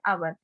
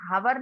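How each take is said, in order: First: The word begins with a vowel, no h. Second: The word begins with an h sound. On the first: The speaker calls it right. "इसको क्या बोलते हैं, आवर" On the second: The speaker calls it wrong. "हम हावर नहीं बोलते"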